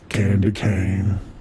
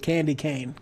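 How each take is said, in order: First: It is said in a put-on deep voice. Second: It is said in a normal voice.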